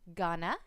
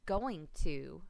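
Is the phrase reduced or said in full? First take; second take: reduced; full. First: The two words are blended into a reduced form. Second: The two words are said fully and separately. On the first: The speaker calls it wrong. "slurring your words together" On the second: The speaker calls it right. "instead of"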